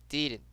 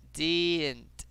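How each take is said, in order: First: Said in the usual way. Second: "didn't" stretched slowly; drawn-out demo. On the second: Shown as a demonstration. Teacher models an easy word for students, drawn out. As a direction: draw out the first vowel of "didn't". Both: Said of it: "Repeat after me".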